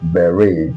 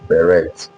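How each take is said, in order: First: The final T is silent. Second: The final T is pronounced. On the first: The speaker calls it right. "That T is totally silent" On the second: The speaker calls it wrong. "not beret"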